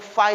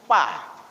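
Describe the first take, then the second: First: It begins with an f sound. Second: It begins with a p sound. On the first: The speaker calls it right. "Sumatera Selatan khususnya ngomong fa itu susah" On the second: The speaker calls it wrong. "Fa itu jadi pa dia"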